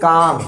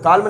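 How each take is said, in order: First: The word is said without an L sound. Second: The word is said with an L sound. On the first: The speaker calls it right. "इसको बोलते हैं काम" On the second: The speaker calls it wrong. "काल्म नहीं पढ़ते इसको"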